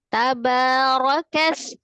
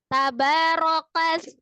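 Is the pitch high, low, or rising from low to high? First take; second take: low; high. First: It is said on a steady low pitch. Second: It is said on a steady high pitch. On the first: "kalau misalnya Umi baca dengan rendah" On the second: "tabarokas tinggi kan, tapi tidak meninggikan"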